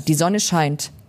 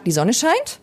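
First: The voice falls at the end. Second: The voice rises at the end.

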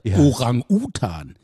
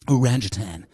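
First: The word is pronounced the German way. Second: The word is pronounced the English way. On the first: "wie so ein deutscher Honk und meinte Orang-Utan" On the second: "so sagen die"

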